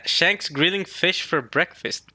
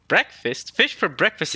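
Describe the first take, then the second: First: Slow, drawn-out reading of the request. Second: Questioning breakfast in disbelief; can't believe it's breakfast; incredulous. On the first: Shown as a demonstration. Reading the reader request aloud, slowly. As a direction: read the caption out slowly. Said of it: "the reader request says". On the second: Real, not acted. Reacting to fish for breakfast, incredulous.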